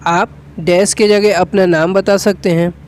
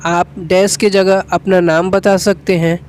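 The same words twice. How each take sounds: The two takes are said the same way.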